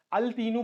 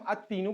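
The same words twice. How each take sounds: First: Put-on al-teenu for "التینو", with the l sounded; lam pronounced. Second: Put-on at-teenu for "التینو", l silent, t doubled; assimilated lam. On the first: ("التینو" میں لام پڑھ کر، ال تینو) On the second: ("التینو" میں لام خاموش، ات تینو) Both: Shown as a demonstration. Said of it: "پڑھنے کے بجائے ہم".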